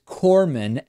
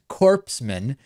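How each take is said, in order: First: The 'ps' is silent in the word. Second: The 'ps' is sounded, like 'corpse'.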